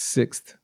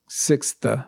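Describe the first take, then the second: First: The word is said as one syllable. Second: The word is said as two syllables. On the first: The speaker calls it right. "it's just one syllable we say in English, it's sixth" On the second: The speaker calls it wrong. "Some people say sixth, sixth, it's not sixth, it's, so that's two syllables"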